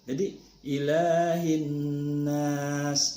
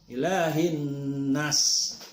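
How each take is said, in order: First: The vowel of la is held long. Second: The vowel of la is short. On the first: The speaker calls it right. "ila la-nya panjang dua harakat" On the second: The speaker calls it wrong. "keliru itu"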